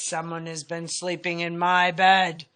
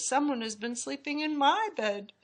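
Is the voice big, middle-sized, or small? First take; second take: big; middle-sized. First: It is said in a great big voice. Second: It is said in a middle-sized voice.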